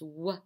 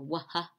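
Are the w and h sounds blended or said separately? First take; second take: blended; separate. First: The w and h are blended into one sound. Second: The w and h are said as separate sounds. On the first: The speaker calls it right. "You have to put those two together" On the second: The speaker calls it wrong. "don't say waha, because that sounds awful funny together"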